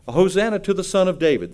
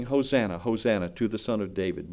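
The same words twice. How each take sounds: First: Crowd proclaiming. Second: Soft, low, gentle hosanna; children's praise. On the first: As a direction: call it out like the crowd on the road. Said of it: "they said". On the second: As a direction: say it hushed, like children singing it. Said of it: "the little children were singing". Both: Retold or imitated.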